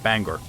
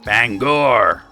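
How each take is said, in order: First: The second syllable is reduced to 'ger'. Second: The second syllable has a full 'gor' vowel. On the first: The speaker calls it wrong. "Not Bangor" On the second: The speaker calls it right. "Gotta put the accent on that"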